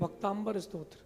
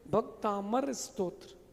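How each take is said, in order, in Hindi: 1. इस नाम को 'amb' की आवाज़ के साथ बोला जाता है। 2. इस नाम को सादे 'am' की आवाज़ के साथ बोला जाता है। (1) "नाम ही गलत बोलते हैं" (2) "तो भक्तांबर नहीं है"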